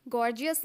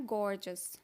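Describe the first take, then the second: First: "गॉर्जियस" said GOR-ji-us; three syllables in "गॉर्जियस", extra i; wrong pronunciation. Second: "गॉर्जियस" said GOR-jus; just two syllables in "गॉर्जियस"; correct pronunciation. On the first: Teacher shows learners the error, "गॉर्जियस" as GOR-ji-us. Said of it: "गॉर्जियस नहीं बोलना है". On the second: Teacher corrects learners, "गॉर्जियस" as GOR-jus. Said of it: "इसको बोलना है गॉर्जियस". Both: Shown as a demonstration.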